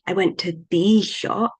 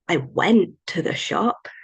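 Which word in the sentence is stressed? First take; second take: the; went. First: The word 'the' carries the stress. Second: The word 'went' carries the stress. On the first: It was a special or already mentioned shop. "might imply that I went to an exciting shop or a shop that we were talking about" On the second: The going already happened in the past. "might imply that I already went in the past, not going again"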